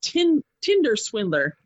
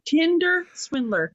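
First: Said in the usual way. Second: "Tinder swindler" said slowly, with TINDER pitched high; careful re-saying. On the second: Real, not acted. Podcaster repeating a tongue-twisting title, careful and emphatic. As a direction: say "Tinder swindler" word by word, lifting "Tinder".

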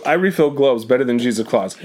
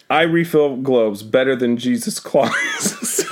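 First: Said in the usual way. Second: Reading through suppressed laughter; trying not to laugh while reading; stifled giggles. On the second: Real, not acted. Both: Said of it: "I'm trying not to laugh".

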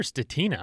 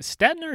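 First: "Stetina" as steh-TEE-na, three syllables; long-I pronunciation. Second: "Stetina" as STET-na, two syllables; silent-I pronunciation. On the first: Host checks the guest's surname, "Stetina" as steh-TEE-na. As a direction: stress a long EE in the middle of "Stetina". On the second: Host checks the guest's surname, "Stetina" as STET-na. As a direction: say "Stetina" with the I dropped: STET-nuh. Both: Shown as a demonstration. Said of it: "heard it pronounced both ways".

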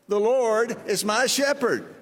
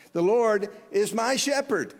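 First: Slower, louder, each word laid out for the room to echo; slow recitation for the congregation to repeat. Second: Said in the usual way. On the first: Shown as a demonstration. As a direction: recite it slowly so they can say it with you. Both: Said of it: "Say that with me".

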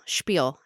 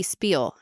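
First: "Spiel" starting with sh, as "shpeel"; sh sound. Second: "spiel" starting with a plain s, as "speel"; plain s sound. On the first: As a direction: correct it to "Spiel" with an sh. Self-correction of the slipped word. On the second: Tongue-twister slip, corrected right after. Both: Real, not acted.

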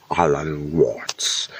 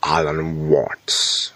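First: Slow whispered Alan Watts; whispered accented Alan Watts; whispered name. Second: Slow, drawn-out accented Alan Watts; slow hint of a British accent on Alan Watts; put-on accent. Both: Shown as a demonstration. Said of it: "I wanna say it in the accent".

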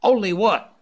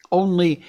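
First: Sharp, high, loud snap; snapped. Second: Slow start. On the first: Scott snapping impatiently at the dog musher. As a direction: bite the question off short. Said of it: "Scott snapped out". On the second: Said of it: "musher began slowly". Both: A narrator's reading.

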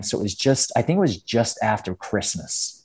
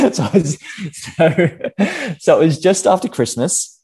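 First: Put-on American accent; Australian imitating American speech. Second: Higher, louder, through laughter; amused recovery in own voice; laughing. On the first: Shown as a demonstration. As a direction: keep up the American act. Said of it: "an American accent for me". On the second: Real, not acted. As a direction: get back to the story while laughing. Laughing after dropping the American accent.

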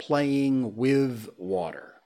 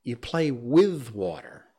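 First: "playing with water" spoken slowly, stress on "with"; slow careful correction. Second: "You play with water" slow and firm, "with" hit; slow firm correction, stress on "with"; correcting, stress on with. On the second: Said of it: "water is not a thing". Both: Shown as a demonstration.

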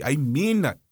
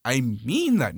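First: Said in the usual way. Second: Deep, grave "mean"; low firm emphasis. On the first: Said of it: "repeat, lower second time". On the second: Real, not acted. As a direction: drop lower on "I mean that" for weight. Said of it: "lower, firmer repeat".

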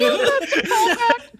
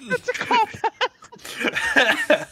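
First: "That's a callback" squealed very high through laughter; laughing high squeal. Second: "That's a callback" drawn out very slowly, high and laughing; slow laughing repeat. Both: Real, not acted.

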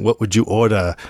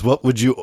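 First: Lightly put-on French accent. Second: Said in the usual way. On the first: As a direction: imitate a French maître d', accent kept light. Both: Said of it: "he speaks in a French accent".

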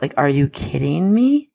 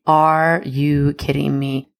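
First: Said in the usual way. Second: Are said slowly, leaning hard on "Are"; stress on are. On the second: Real, not acted. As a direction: drag out "Are you kidding me?" and lean on "Are". Repeats it, slower, stressing are.

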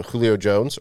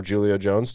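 First: Julio begun with an H sound; Spanish-style Julio. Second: Julio begun with a J sound; English-style Julio. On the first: Offering a first pronunciation of the player's name, Julio as HOO-lee-oh. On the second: Offering another pronunciation of the player's name, Julio as JOO-lee-oh. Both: Shown as a demonstration. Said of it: "depending on how you wanna pronounce it".

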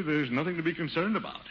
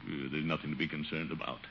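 First: Higher, full-voiced assurance to others; confident reassurance. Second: Low, soft talking to himself; uneasy self-reassurance. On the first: Reassures his niece aloud. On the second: Acted. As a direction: try to calm yourself under your voice, low. Alone at dark, reassuring himself.

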